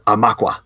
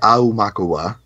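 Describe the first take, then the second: First: The word is said with three syllables. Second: The word is said with five syllables. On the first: "like three syllables" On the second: "five syllables"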